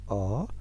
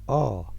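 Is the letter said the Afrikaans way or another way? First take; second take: Afrikaans; Afrikaans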